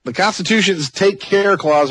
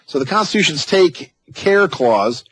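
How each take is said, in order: First: Slow Texas drawl on take care; drawn-out Texan take care, rising at word ends; Texas accent. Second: Slow Texan read of the clause; Texas accent. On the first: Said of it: "I'm trying to use my Texas accent here". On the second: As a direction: stretch take care Texas-style. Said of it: "use the Texas accent". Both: Shown as a demonstration.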